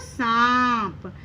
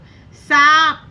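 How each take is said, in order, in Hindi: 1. पहला स्वर अनुनासिक है, नाक से निकलता है। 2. पहला स्वर सादा है, नाक की आवाज़ के बिना। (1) "हम क्या बोलते हैं उसको सांप" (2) "चंद्र बिंदु हटाकर पढ़ेंगे तो शब्द कैसा बनेगा"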